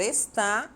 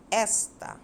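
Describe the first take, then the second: First: "está" with the stress on final TÁ, loud and rising; "está" stressed at the end, not on the first syllable; stress on last syllable. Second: "Esta" set alone, stressed at the start; stress on first syllable. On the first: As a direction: punch the TÁ of "está". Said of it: "a palavra destacada esta e está". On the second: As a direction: punch the ES of "Esta". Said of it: "a sílaba tônica é o es". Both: Shown as a demonstration.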